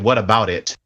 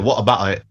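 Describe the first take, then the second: First: It is said in an American accent. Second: It is said in a British accent.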